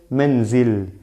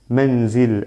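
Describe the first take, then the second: First: The word ends on a bare 'l' sound. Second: The word ends on a bare 'l' sound.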